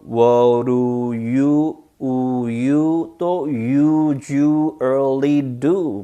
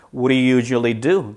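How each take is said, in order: First: Very slow "What do you usually do", vowels drawn out; slow stretched demo. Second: Said in the usual way. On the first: Shown as a demonstration. Teacher showing the many 우 sounds, very slow and stretched. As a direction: hold each "oo" in "you", "usually" and "do". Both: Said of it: "천천히 많이 해놓으세요".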